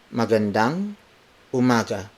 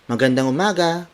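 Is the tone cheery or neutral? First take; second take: neutral; cheery. First: It is said in a plain, neutral tone. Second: It is said in a bright, cheery tone. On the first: "word for word" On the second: "make it a cheery tone"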